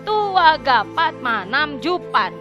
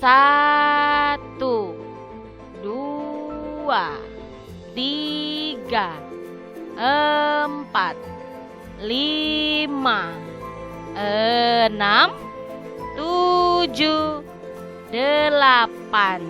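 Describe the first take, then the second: First: The count is said quickly, run together. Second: The count is said slowly, with long gaps.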